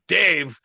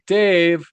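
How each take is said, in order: First: The name is said in a stern, angry tone. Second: The name is said in a warm, friendly tone. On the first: The child is in trouble. "I heard the other one" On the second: Everything is fine. "I knew that that was all good"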